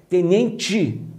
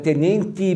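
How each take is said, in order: First: The final syllable is said without a dental sound. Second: The final syllable is said with a dental sound. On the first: "Já no Rio de Janeiro, tal, talvez tenente" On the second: "Em São Paulo, por exemplo, dada a influência italiana... tendemos a dentalizar essa sílaba final. Então é tenente um pouco dentalizado"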